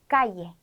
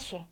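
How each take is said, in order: First: The middle consonant sounds like a y. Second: The middle consonant sounds like sh. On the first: "이로 소개를 해드렸지만" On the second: "시로 발음하기도 합니다"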